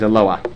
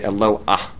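First: The word ends without an h sound. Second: The word ends with an h sound. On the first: The speaker calls it right. "no ha sound" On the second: The speaker calls it wrong. "if you want to do it wrong, but not totally wrong"

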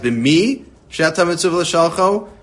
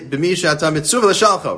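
First: The stress is on the word b'mi. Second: The stress is on the word l'shalcho.

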